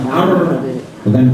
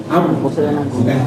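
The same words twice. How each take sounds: No difference in how they are said.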